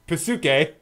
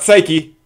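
First: It is said with three syllables, pa-su-ke. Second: It is said with two syllables, sigh-kee. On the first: The speaker calls it right. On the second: The speaker calls it wrong. "Not Psyche"

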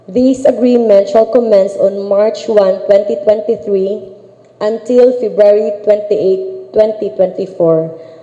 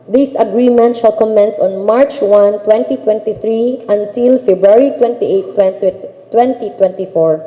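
No difference in how they are said.

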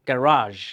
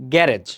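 First: The second vowel sounds like 'ah'. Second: The second vowel sounds like 'eh'. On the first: The speaker calls it right. "প্রকৃত উচ্চারণটা কি, এটা হবে গ্যারাজ" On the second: The speaker calls it wrong. "এই উচ্চারণটা আমরা ভুল করে থাকি"

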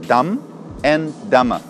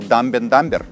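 First: The b at the end of dumb is silent. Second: The b at the end of dumb is pronounced. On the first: The speaker calls it right. "буква «b» опять же не читается" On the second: The speaker calls it wrong. "все детство я не знал об этом и говорил"

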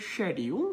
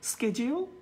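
First: It is said with a British accent. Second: It is said with an American accent.

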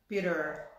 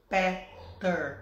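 First: The middle consonant is a quick r-like tap. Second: The middle consonant is a plain t sound. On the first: This is how it sounds in American English. "O T tem esse som de ra, né? Ra" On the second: This is how a Portuguese speaker would read it. "A gente falaria Peter, né? Se fosse português"

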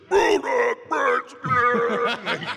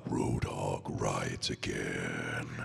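First: It is said loudly in a barking way. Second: It is said smoothly and held back.

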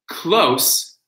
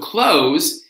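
First: The word ends with an S sound. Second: The word ends with a Z sound. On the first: It is an adjective: near. "close being an adjective" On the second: It is a verb: to shut something. "close is the verb"

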